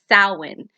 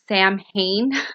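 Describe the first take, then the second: First: The name is not sounded out letter by letter. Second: The name is sounded out letter by letter. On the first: The speaker calls it right. "It's Samhain" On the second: The speaker calls it wrong. "the way it's spelled looks like it says it would be pronounced as Samhain, but it's not"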